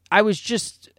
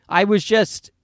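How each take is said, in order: Both takes have the same delivery.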